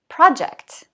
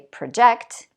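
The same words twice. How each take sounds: First: The stress is on the first syllable. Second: The stress is on the second syllable. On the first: The speaker calls it right. "two-syllable nouns with word stress on the first syllable" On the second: The speaker calls it wrong. "I don't say project"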